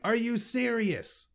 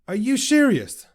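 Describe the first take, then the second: First: The words are spoken clearly and crisply. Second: The words are slurred like a drunk person.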